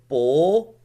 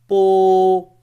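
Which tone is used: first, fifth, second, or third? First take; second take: second; first. First: It is said with the second tone. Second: It is said with the first tone. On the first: "second tone" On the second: "the first tone"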